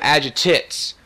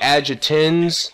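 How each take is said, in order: First: The word ends with an 'ates' sound. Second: The word ends with an 'ins' sound. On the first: The speaker calls it wrong. "but I always call them Agitates" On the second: The speaker calls it right. "I know it's like Agitins"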